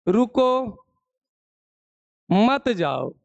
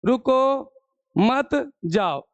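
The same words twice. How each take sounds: First: रुको set apart, long pause, then मत जाओ together; pause after रुको. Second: मत drawn out and cut off from जाओ; रुको, then slow मत, a gap, then जाओ; pause after मत. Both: Shown as a demonstration. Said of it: "शब्द को आप कैसे बोल रहे हैं".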